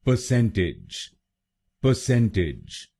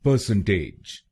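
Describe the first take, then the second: First: परसेंटेज with the last syllable as टिज; परसेंटेज said correctly, stress on सेन; correct pronunciation. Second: परसेंटेज with a flat ending टेज; परसेंटेज said the wrong way, ending like टेज; wrong pronunciation. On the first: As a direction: model the right way, परसेंटेज ending in टिज. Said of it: "इसकी सही pronunciation है". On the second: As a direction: demo the common Indian way, परसेंटेज ending in टेज. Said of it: "पहले सुनते हैं गलत pronunciation". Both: Shown as a demonstration.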